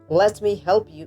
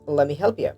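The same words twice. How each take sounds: First: 'Let me' is said fully and separately. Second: 'Let me' blends into one reduced form.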